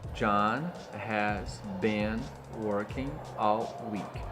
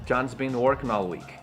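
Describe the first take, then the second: First: Every word is said in full, including 'has'. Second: The minor words are weak and 'has' is contracted.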